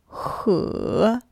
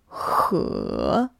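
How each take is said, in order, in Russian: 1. Тон опускается, а потом поднимается. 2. Тон опускается, а потом поднимается.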